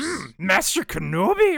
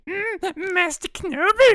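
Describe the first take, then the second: First: It is said in a lower-pitched Yaddle voice. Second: It is said in a higher-pitched Yaddle voice.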